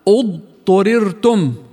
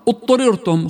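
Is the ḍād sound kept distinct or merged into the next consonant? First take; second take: distinct; merged. First: The ḍād is pronounced fully before the next consonant. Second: The ḍād is merged into the following consonant. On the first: The speaker calls it right. "الصح إذن اضطررتم" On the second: The speaker calls it wrong. "فيقولون خطأ اضطررتم"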